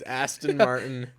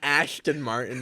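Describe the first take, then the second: First: The first word has a plain 's' sound. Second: The first word has a 'sh' sound. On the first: The speaker calls it right. "It's Aston Martin" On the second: The speaker calls it wrong. "It is not Ashton Martin"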